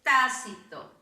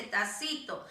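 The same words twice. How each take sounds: First: "tácito" stressed on the first syllable, TÁ-ci-to; "tácito" said properly, TÁ-ci-to; correct stress. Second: "tacito" said ta-CI-to, stress on the middle syllable; "tacito" as a mistaken reading, stressed ta-CI-to; wrong stress. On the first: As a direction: hit the accented A in "tácito". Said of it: "tácito lleva tilde en la A". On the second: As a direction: say "tacito" with no accent on the first A. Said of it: "Si no le colocamos, dice tacito". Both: Shown as a demonstration.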